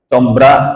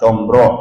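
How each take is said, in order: First: The r is light and thin. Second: The r is heavy and full-mouthed. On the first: The speaker calls it wrong. "Combra, misra, enggak" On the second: The speaker calls it right. "sekarang coba sebut makanan"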